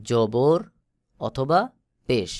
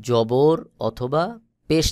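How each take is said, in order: Both takes have the same delivery.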